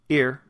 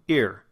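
The two takes are said the same way.

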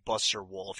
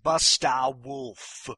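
First: It is said in a plain, ordinary accent. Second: It is said in an exaggerated, funny accent. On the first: The speaker calls it wrong. "you can't say Buster Wolf" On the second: The speaker calls it right. "You have to say Busta Wolf"

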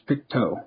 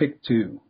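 First: The last syllable sounds like 'toe'. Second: The last syllable does not sound like 'toe'. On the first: The speaker calls it right. "It's Pictou. ... T-O-E" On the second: The speaker calls it wrong. "I said it was Pictou. It is not"

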